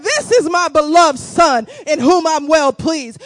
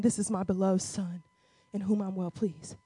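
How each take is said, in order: First: Loud, declared heavenly words; booming scripture proclamation; proclaiming voice of God. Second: Hushed, low reading of the heavenly words; quiet awed scripture read; soft voice of heaven. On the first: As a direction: announce it boldly to the crowd. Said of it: "He said". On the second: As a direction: read it softly and with reverence. A voice came from heaven saying. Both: Acted.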